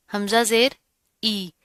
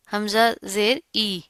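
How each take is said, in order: Both takes have the same delivery.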